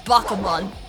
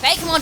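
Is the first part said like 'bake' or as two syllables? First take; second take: two syllables; like bake. First: The first part is said as two syllables. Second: The first part sounds like the word bake. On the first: The speaker calls it right. "I think it's Bakumon" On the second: The speaker calls it wrong. "Bakemon doesn't sound right. Bakemon should be a cake"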